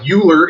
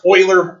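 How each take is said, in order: First: The name starts without an 'oi' sound. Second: The name starts with an 'oi' sound. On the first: The speaker calls it wrong. "it looks like Euler if you grew up in America learning American English" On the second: The speaker calls it right. "in German the E U makes the oi sound. So it's pronounced Euler"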